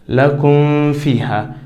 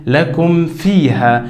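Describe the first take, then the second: First: The m sound is hidden and weakly nasalized. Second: The m sound is fully and clearly closed. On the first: The speaker calls it wrong. "some people pronounce it with hiding" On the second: The speaker calls it right. "I pronounced it clearly without any changing"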